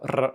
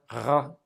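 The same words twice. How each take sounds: First: The R is rolled with the tongue tip. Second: The R is made at the back of the throat. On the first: "a Russian R, ... at the tip of the tongue" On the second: "the French R, ... in the back"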